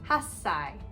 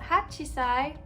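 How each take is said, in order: First: The number is contracted with a doubled 's'. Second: The number is said in full as 'hachi'. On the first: The speaker calls it right. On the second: The speaker calls it wrong.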